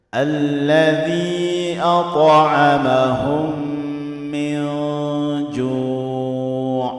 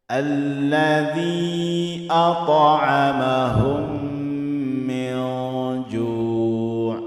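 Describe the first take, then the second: No difference in how they are said.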